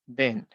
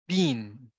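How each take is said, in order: First: The word does not sound like bean. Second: The word sounds like the food word bean. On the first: The speaker calls it right. "it will be something like been" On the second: The speaker calls it wrong. "sometimes we may pronounce it as bean"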